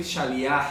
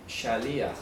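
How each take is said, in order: First: Shaliach stressed on the final A; wrong stress demo. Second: Shaliach stressed on the I; correct Hebrew pronunciation. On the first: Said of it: "con tilde en la A, por favor". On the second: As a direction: say Shaliach carefully, sha-LI-aj, accent on the i. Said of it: "Se pronuncia así, con tilde en la I". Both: Shown as a demonstration.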